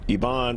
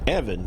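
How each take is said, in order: First: The name is said with a Spanish pronunciation. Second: The name is said with an English pronunciation. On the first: The speaker calls it wrong. "I'm calling him Ivan, and that's more of a Spanish pronunciation" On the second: The speaker calls it right. "It's Evan Stafford"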